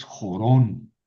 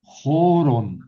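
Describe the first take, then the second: First: Jorón stressed on the last syllable, jo-RON; poprawny akcent. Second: Jorón stressed on the first syllable, JO-ron, loud and higher; błędny akcent. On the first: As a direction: say jorón slowly, leaning on the final -rón. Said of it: "es jorón". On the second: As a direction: say jorón wrongly, with a long, strong first syllable. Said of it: "Aquí ya no es". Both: Shown as a demonstration.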